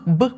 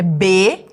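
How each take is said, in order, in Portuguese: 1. A consoante é dita pura, sem vogal. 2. A consoante vem seguida de um som de vogal. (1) "aprender o som, que é B" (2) "ela aprende o nome da letra, que é B"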